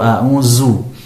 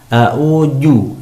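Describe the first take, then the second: First: The dh sound is replaced by a z. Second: The dh sound is replaced by a j. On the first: "huruf dzal seringkali diganti dengan huruf zai" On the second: "huruf dzal diganti dengan huruf jim"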